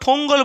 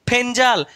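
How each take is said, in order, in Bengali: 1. এতে 'ng' ধ্বনি আছে এবং 'o' স্বরধ্বনি আছে। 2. এতে 'nj' ধ্বনি আছে এবং 'e' স্বরধ্বনি আছে। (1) "বা ফঙ্গল বলছে" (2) "এর অ্যাকচুয়ালি উচ্চারণ হচ্ছে ফেঞ্জাল"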